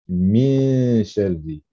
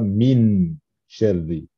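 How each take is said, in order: First: The n is hidden in a nasal hum. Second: The n is pronounced fully and normally. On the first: The speaker calls it right. "On prononce min sharri" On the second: The speaker calls it wrong. "et non pas min sharri"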